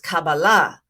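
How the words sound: It uses the Sephardic Hebrew pronunciation.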